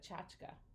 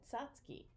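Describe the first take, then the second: First: The word ends in an 'ah' sound. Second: The word ends in an 'ee' sound. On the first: This is how it is said elsewhere. "instead of tchotchka" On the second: This is how it was said in Boston. "We said tzatzki"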